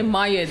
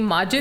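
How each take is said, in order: First: The middle consonant is a Y sound. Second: The middle consonant is a J sound. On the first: This is a regional dialect form. "they say Mayid" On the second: This is the standard form. "the ma- name Majid"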